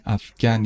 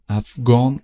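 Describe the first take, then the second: First: افغان with a pronounced final n; French feminine form. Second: افغان with nasal last vowel, no n; French masculine form. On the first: Teacher repeats the feminine for learners, افغان with sounded n. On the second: Teacher repeats the masculine for learners, افغان with nasal ending. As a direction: say افغان ending openly through the nose. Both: Shown as a demonstration.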